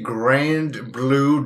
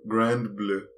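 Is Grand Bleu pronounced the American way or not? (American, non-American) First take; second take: American; non-American. First: It is said with an American pronunciation. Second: It is said with a non-American pronunciation. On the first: "I'll say it in the American for compatibility mode" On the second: "That's just my pronunciation"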